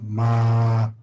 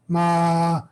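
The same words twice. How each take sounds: First: The syllable is said with a low tone. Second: The syllable is said with a high tone. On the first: "there's low tone ma" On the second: "high tone"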